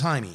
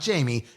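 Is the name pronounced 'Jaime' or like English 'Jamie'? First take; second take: Jaime; Jamie. First: The name is said unlike English 'Jamie'. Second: The name sounds like English 'Jamie'. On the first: The speaker calls it right. "it's Jaime" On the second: The speaker calls it wrong. "it's not Jamie"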